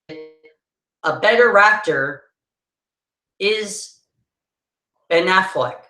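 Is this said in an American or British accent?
British. It is said in a British accent, with linking r. "Hear the difference?"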